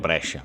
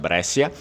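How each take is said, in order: First: It uses the Italian pronunciation. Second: It uses the Portuguese and Venetian pronunciation. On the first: "em italiano" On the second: "isso aqui vai ficar para o português e vale também para o Vêneto, essa pronúncia"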